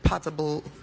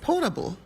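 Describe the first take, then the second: First: It is pronounced in an unfamiliar, possibly British way. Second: It is pronounced in the speaker's usual way. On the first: Someone else said it this way. The speaker calls it wrong. "I just heard Senator Potter say potable water. So I was like, is that a British way of saying it?" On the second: This is how the speaker says it. The speaker calls it right. "Because it's potable, right?"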